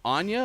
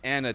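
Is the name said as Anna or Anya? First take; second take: Anya; Anna. First: The middle sounds like 'nya', with a y glide. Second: The middle is a plain 'n' with no glide. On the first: "Is it Anya or Anna" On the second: "Is it Anya or Anna"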